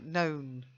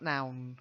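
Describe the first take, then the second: First: The vowel sounds like the one in 'own'. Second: The vowel sounds like the one in 'town'. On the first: The speaker calls it right. "So known" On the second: The speaker calls it wrong. "not noun"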